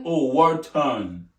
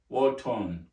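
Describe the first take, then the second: First: "war-torn" stretched slowly and loudly, a long open "war"; drawn-out war-torn. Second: Said in the usual way. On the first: Shown as a demonstration. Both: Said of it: "My Nigerian accent is saying war".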